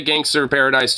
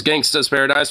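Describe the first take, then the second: First: "Gangster" with the final r sounded; "Gangster" with -er ending. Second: "Gangsta's" ending in an open "uh", no r. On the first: Giving the version many people say, "Gangster" with its r. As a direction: finish "Gangster" on a clear "er". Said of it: "a lot of people say". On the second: Giving the song's actual title, "Gangsta's" said without an r. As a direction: drop the r in "Gangsta's". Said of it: "a lot of people say Gangster Paradise". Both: Shown as a demonstration.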